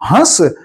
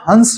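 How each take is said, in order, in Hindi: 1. स्वर स्वयं अनुनासिक है, इसमें कोई 'न' नहीं है। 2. स्वर के बाद एक नासिक्य व्यंजन आता है। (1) "यदि ये हंसने के लिए प्रयोग हो तब तो ये ठीक है" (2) "यानी अनुस्वार लगेगा, अनुनासिक नहीं लगेगा"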